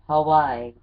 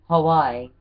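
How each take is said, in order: No difference in how they are said.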